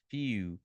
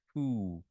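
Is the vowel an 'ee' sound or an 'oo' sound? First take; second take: ee; oo. First: The vowel is an 'ee' sound, as in 'see'. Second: The vowel is an 'oo' sound, as in 'boot'. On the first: The speaker calls it right. "a gente fala feel" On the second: The speaker calls it wrong. "a gente não fala foo"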